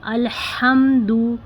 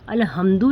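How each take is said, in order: First: The h is a raspy sound from the throat. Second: The h is a plain, light breath. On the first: The speaker calls it right. "बल्कि अल्हम्दु इस तरह हा निकालने की कोशिश करें" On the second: The speaker calls it wrong. "इस हा को हमें इस हा की तरह नहीं पढ़ना है, अल्हम्दु नहीं है ये"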